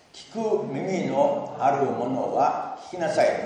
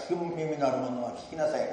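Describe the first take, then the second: First: Slow, louder recitation with the congregation; slow unison recitation. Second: Said in the usual way. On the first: Shown as a demonstration. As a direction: lead everyone through it word by word. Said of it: "ご一緒にどうぞ". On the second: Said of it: "皆さん、一緒に言ってみましょうか".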